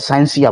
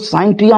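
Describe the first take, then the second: First: The middle consonant is an 's' sound. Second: The middle consonant is a 't' sound. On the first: The speaker calls it right. "बोलिएगा" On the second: The speaker calls it wrong. "मत बोलिएगा"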